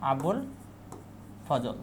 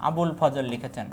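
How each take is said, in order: First: Abul and ফজল said apart with a long pause between, each one stressed; name spaced out. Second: Said in the usual way. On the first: Shown as a demonstration. Teacher repeating Abul ফজল word by word for students to memorise. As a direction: set each part of the name apart so it sticks.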